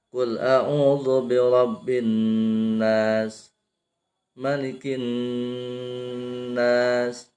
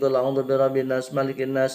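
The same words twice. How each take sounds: First: A breath pause separates the two verses. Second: The verses run together quickly without a breath. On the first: The reader properly stops at the verse end. The speaker calls it right. "Tarik napas dulu" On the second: The reader is hurrying to finish. The speaker calls it wrong. "karena kecepatan ... Pengen buru-buru beres"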